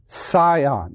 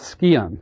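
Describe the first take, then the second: First: The C is silent, starting with an s sound. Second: The C is pronounced as a k sound. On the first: The speaker calls it right. "It's scion. It has a silent C" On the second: The speaker calls it wrong. "that's scion. But it's not"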